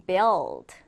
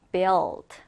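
No difference in how they are said.

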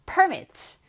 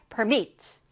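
First: "permit" as a noun, stressed PER-mit; stress on first syllable. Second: "permit" as a verb, stressed per-MIT; stress on second syllable. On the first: Teacher shows students the noun form, "permit" stressed on PER. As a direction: hit the front of "permit" high, then fall. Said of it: "명사일 때는 앞에 강세가 와요". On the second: Teacher shows students the verb form, "permit" stressed on MIT. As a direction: hit the back syllable of "permit". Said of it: "뒤에서 강세가 올 때는 동사". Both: Shown as a demonstration.

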